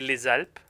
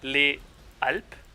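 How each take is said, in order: First: The S sound carries over into the next word. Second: The words are said apart, with no linking S sound. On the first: The speaker calls it right. "you carry this S over this S sound over to the next word" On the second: The speaker calls it wrong. "you don't say"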